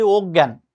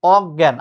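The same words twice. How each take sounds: First: অজ্ঞান with closed o, "og-gyan"; wrong pronunciation. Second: Louder অজ্ঞান with open first vowel, "awg-gyan"; correct pronunciation. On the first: Teacher quoting a frequent mistake, wrong অজ্ঞান as "og-gyan". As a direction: round the first vowel of অজ্ঞান wrongly, "og-gyan". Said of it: "ভুল". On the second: Teacher telling students what to remember, correct অজ্ঞান as "awg-gyan". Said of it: "মনে রাখবো আমরা". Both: Shown as a demonstration.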